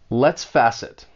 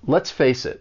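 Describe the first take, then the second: First: One word is pronounced in a nonstandard way. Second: Every word is pronounced in the standard way. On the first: The speaker calls it wrong. "a mistake is made and I mispronounce a word" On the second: The speaker calls it right. "And then practice saying it"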